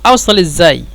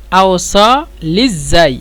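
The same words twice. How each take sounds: First: Said in the usual way. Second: আওসাল ইজাই drawn out very slowly; very slow model pronunciation; slow demo. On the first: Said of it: "একসাথে বলে আওসাল ইজাই". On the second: Shown as a demonstration. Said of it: "এভাবে বলবেন".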